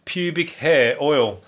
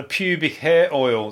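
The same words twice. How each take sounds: First: Slow, each word dragged in disbelief; slow disbelieving repeat. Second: Said in the usual way. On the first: Shown as a demonstration. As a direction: savour "Pubic hair oil" slowly, incredulous.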